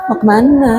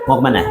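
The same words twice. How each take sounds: First: High-pitched, womanly lilt, played for laughs; put-on effeminate "where are you going?" voice; mock feminine voice. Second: Low, brisk masculine delivery; put-on manly voice, pitched well down; trained manly voice. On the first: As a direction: imitate a man talking like a woman, pitched well up. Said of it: "Kayak perempuan". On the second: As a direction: drop the pitch and say it like a tough man. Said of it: "Tadinya gemulai menjadi kekar". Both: Shown as a demonstration.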